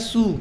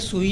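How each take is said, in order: First: The name is said as one syllable, soo. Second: The name is said as two syllables, sui. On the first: The speaker calls it right. "ये है सू" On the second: The speaker calls it wrong. "ये सुई नहीं है"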